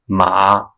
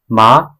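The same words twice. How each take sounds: First: The pitch dips low, then rises. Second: The pitch rises from mid to high. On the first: It means horse. "with the third tone means house" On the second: It means linen. "with the second tone means linen"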